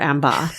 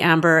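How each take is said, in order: First: The final R sound is dropped. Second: The final R sound is pronounced.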